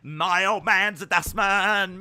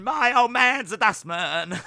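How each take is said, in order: First: Slow, loud Cockney British sing-song; British accent. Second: Loud, higher Cockney British take; British accent. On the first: Still doing the British accent, slow and loud Cockney. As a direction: drag out the Cockney British line. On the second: Second British accent take, loud and higher Cockney. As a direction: repeat it brighter in Cockney British. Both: Acted. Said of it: "Do a British accent".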